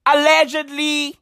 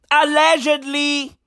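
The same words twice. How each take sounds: The two takes are said the same way.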